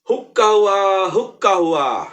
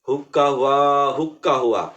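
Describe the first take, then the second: First: The call is said very loudly. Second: The call is said moderately loud. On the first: "এবার খুব জোরে বলতে বলেন" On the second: "একটু মধ্যম জোরে বলবেন"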